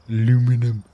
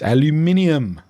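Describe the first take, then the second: First: The word is said with four syllables. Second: The word is said with five syllables. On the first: The speaker calls it wrong. "most Americans don't even know how to pronounce aluminum" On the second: The speaker calls it right. "It's aluminium"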